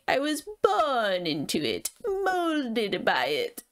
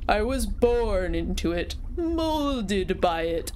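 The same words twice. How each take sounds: First: The voice is high, nasal and heady. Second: The voice is low, deep and chesty. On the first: The speaker calls it right. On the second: The speaker calls it wrong.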